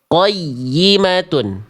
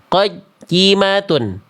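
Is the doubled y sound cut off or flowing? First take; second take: flowing; cut off. First: The doubled y sound flows on without a break. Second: The doubled y sound is cut off abruptly. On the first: The speaker calls it right. "Seharusnya qayyimatun" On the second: The speaker calls it wrong. "Bacaan salah, ya tasydidnya terputus"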